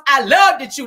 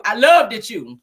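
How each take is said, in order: First: Higher, louder, punchy imitated Wanda on loved. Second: Said in the usual way. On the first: Shown as a demonstration. Host redoing the line to Gail in a higher Wanda voice. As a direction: belt it out the way Wanda would. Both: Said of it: "In my Wanda voice".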